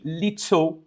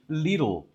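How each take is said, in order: First: The middle consonant is a crisp t. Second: The middle consonant is a soft d. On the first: "in British English, it's a real T" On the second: "in American English, it will be little"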